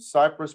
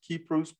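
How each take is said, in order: First: The name starts with an S sound. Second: The name starts with a K sound. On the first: This is the usual English way to say it. "Cyprus pronounced Kypros" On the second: This is how local people say it. "people over there pronounce it Kypros"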